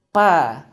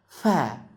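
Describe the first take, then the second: First: The two lips close and then release. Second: Air blows between the two lips. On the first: "dua bibir yang disambung" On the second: "dua bibir yang dianginkan"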